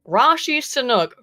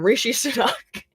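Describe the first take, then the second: First: The name is said as Rashi Sanuk. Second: The name is said as Rishi Sunak. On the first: The speaker calls it wrong. "how you got Rashi Sanuk" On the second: The speaker calls it right. "from Rishi Sunak"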